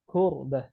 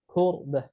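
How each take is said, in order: First: The first consonant is a k with breath. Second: The same.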